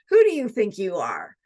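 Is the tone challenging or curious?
challenging. It sounds like a scornful, challenging rebuke. The listener is being put down for overstepping. "Instead of"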